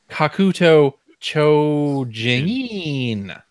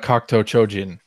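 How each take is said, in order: First: The name is said in an American accent. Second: The name is said in a plain accent.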